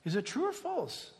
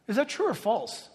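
First: "true or false" asked softer, each word weighed; slow down so they really think; slower, weighed question. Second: Said in the usual way. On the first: Shown as a demonstration. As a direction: pastor re-asking so they don't answer quickly. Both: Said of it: "don't answer so quick".

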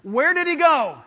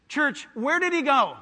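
First: Louder, higher, emphatic call to answer; insistent repeat question. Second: Said in the usual way. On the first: Real, not acted. Preacher prompting the church to answer, loud and insistent. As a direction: demand a confident answer from the crowd. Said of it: "act like you know". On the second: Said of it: "I'm gonna ask you again".

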